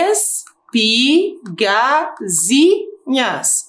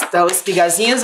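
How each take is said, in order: First: Espigazinhas very slow, every syllable pulled apart; split into syllables. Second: Said in the usual way. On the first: Shown as a demonstration. Teacher showing the class where the word splits, syllable by syllable. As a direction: break espigazinhas into separate syllables, slowly. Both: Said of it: "eu posso separar em".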